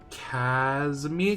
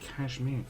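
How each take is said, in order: First: It is said with three syllables, like Casimir. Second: It is said with two syllables, like cashmere.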